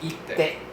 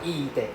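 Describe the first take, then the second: First: A short vowel is followed by a held double t. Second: The first vowel is long before a single t. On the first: The speaker calls it right. "It's ite. ... Double consonant" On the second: The speaker calls it wrong. "Not ite"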